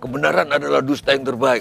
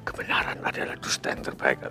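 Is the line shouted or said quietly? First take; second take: shouted; quietly. First: The line is shouted loudly. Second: The line is said quietly, without shouting.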